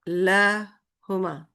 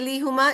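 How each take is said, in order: First: The first vowel is an 'ah' sound. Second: The first vowel is an 'ee' sound. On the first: The speaker calls it right. "It will be lahuma" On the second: The speaker calls it wrong. "it is wrong"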